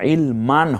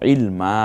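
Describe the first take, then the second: First: The word ends with an 'n' sound. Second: The word ends on a long open vowel. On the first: The speaker calls it wrong. "ইলমান হবে না" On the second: The speaker calls it right. "হবে ইলমা, একালিপ টেনে বলবো"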